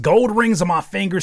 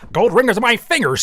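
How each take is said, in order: First: It is read in a plain, everyday voice. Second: It is read in a put-on accent.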